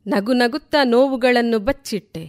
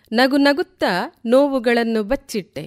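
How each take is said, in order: Both takes have the same delivery.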